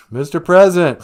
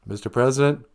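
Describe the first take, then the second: First: Loud, higher rousing call. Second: Said in the usual way. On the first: Acted. Host rousing the silent president, calling out. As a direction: shout to wake someone. Host calls to rouse caller.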